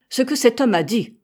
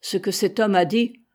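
First: Higher, louder indignant echo; sharp retort. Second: Said in the usual way. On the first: A narrator's reading. Captain cutting off his officer's objection, sharp retort. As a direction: throw the words back forcefully.

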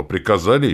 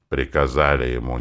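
First: Raised, loud self-justification; defensive insistence. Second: Muted, sceptical echo; disgruntled grumble. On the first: Acted. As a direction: insist there was no choice. Defends himself against accusation. (оправдываясь, с напором) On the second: A narrator's reading. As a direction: grumble it back, unconvinced. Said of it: "недовольно проворчал наш малолетний мститель". (недовольно ворча)

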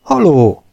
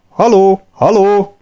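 First: Tired hail, still raised; a spent voice calling hello; weary call. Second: High, loud hail across the desert; shouting hello into the distance; distant calling. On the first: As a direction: call out though exhausted. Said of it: "kiáltotta most már egy bágyat hang". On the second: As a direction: call out to someone far away. Calling out to find the others. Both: Acted.

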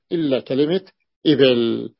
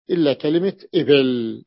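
The two takes are said the same way.

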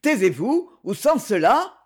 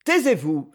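First: Harsh and louder, pitched up as a threat; a hard, menacing order. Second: A harsh, louder command; a hard, stern order. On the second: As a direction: snap her into silence. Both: A narrator's reading. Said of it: "dit durement Roswell".

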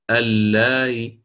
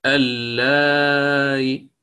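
First: اللاي with a short madd and a faint final kasra; وقف بالروم مع القصر; short madd with rawm. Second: اللاي drawn out slowly, final vowel barely whispered; وقف بالروم مع التوسط; medium madd with rawm. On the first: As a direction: keep it short, end on a trace of the vowel. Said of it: "أو القصر". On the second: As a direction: hold the madd medium and end with a faint trace of kasra. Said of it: "التسهيل بالروم مع التوسط". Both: Shown as a demonstration.

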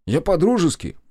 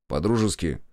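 First: "по-дружески" high and louder, exclaimed; offended exclamation. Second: Said in the usual way. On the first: A narrator's reading. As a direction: protest "по-дружески" indignantly, pitched right up. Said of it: "Он обиделся". (обиженно восклицая «по-дружески»)

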